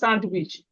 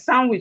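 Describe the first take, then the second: First: The word is said with a D sound. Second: The word is said with no D sound. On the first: The speaker calls it wrong. "is not" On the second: The speaker calls it right. "The D is silent"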